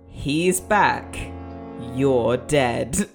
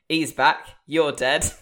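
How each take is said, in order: First: It is read in a dramatic way. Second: It is read in a flat, undramatic way.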